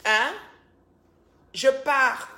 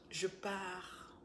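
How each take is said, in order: First: Loud and high "Je pars"; mock loud exit. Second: Said in the usual way. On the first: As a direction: announce "Je pars" loudly as a joke. Repeats the line louder.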